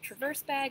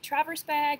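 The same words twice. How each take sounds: First: Traverse is stressed on its second syllable. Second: Traverse is stressed on its first syllable. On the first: It is named like the verb. "or the verb" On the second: It is named like the city. "like the city"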